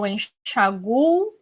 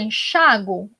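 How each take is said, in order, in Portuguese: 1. A tônica cai na vogal 'u'. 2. A tônica cai na vogal 'a'. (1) "aí ele não tem o acento agudo" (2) "eu vou colocar o acento agudo no A"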